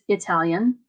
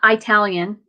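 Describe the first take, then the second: First: The first vowel is a short 'ih' sound. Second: The first vowel is a long 'eye' sound. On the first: The speaker calls it right. "it's Italian. It's not a long I" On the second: The speaker calls it wrong. "It's not"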